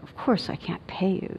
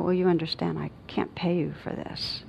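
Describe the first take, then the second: First: Soft, condescending gentleness; quiet, patronizing kindness; gently superior. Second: Hushed, softly detached calm; gentle refusal. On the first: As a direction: talk down softly, as if to a child. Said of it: "being kind of gentle and a little bit like". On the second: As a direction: say it very gently, nearly in a whisper. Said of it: "I just said very gently". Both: Retold or imitated.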